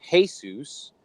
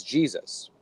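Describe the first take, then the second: First: "Jesus" said hay-SOOS; Spanish "Jesus" with long oo ending; Spanish pronunciation. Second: Said in the usual way. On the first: Shown as a demonstration. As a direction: start "Jesus" with an h sound. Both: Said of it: "Just like in, uh, Spanish".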